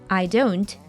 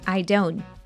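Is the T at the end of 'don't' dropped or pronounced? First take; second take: pronounced; dropped. First: The final T sound is clearly pronounced. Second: The final T sound is dropped.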